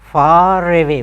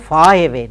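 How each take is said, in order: First: The R of far links into away. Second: The R of far is dropped before away. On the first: The speaker calls it right. "No, far away. Why? R is followed by a word beginning with a vowel" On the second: The speaker calls it wrong. "We never say far away"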